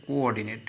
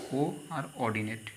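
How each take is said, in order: First: Said in the usual way. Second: কো and অর্ডিনেট said as two separate parts; teacher spelling out কো and অর্ডিনেট as two syllables; split into syllables. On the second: Shown as a demonstration. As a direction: break কোঅর্ডিনেট into কো, then অর্ডিনেট. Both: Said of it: "একে দুটো সিলেবেলে ভাগ করছি".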